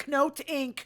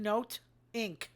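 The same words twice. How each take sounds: First: Said in the usual way. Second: Knote said as "note", silent K, falling. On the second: Shown as a demonstration.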